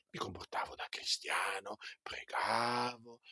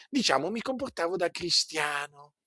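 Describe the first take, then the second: First: Hushed, voiceless repeat of the phrase; whisper. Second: Said in the usual way. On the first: Shown as a demonstration. Preacher confiding to the congregation in a whisper. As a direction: drop to a secret whisper.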